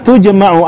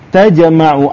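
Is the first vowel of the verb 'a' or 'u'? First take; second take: u; a. First: The first vowel is a 'u' sound. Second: The first vowel is an 'a' sound. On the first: The speaker calls it right. "Kama tujma ya" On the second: The speaker calls it wrong. "ini bukan tajamau ya, salah lah kita bacanya"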